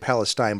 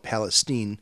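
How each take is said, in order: First: The last syllable sounds like 'stine'. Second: The last syllable sounds like 'steen'. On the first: This is the outsider's usual pronunciation. The speaker calls it wrong. "I know I always want to say Palestine" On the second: This is how the town's residents say it. The speaker calls it right. "I think the locals call it Palestine"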